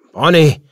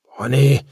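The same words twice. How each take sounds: First: Loud, higher cry, falling at the end; frantic call to wake someone; alarmed shout. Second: Loud, questioning call; worried, raised voice; anxious call. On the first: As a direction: shout the name in desperation. Calls to one not breathing. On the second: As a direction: call the name to rouse them, rising at the end. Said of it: "sagte Crawley". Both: A narrator's reading.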